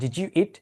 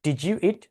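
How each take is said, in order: No difference in how they are said.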